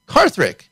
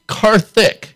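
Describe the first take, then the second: First: An extra R sound comes before the last syllable. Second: No R sound comes before the last syllable. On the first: The speaker calls it wrong. "I've always pronounced it Karthrik" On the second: The speaker calls it right. "it's actually Karthik, right? No R"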